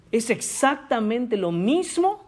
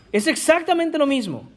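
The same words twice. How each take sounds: First: Said in the usual way. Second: Exactamente stressed, pitched higher; emphatic. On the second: Shown as a demonstration. Preacher driving home the parallel to the congregation, emphatic stress on exactamente. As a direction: lean hard on exactamente, higher.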